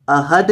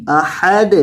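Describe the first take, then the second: First: احد with a flat, unbounced dal; wrong ahad. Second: احد ending in a bounced dal. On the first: Teacher showing the wrong احد. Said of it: "احد نہیں". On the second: Teacher demonstrating the qalqala on احد. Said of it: "دال کو ساکن کریں گے اور ہلا کر پڑھیں گے". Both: Shown as a demonstration.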